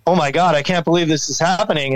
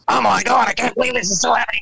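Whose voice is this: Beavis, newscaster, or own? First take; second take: own; Beavis. First: It is said in his own normal voice. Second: It is said in a Beavis and Butthead voice.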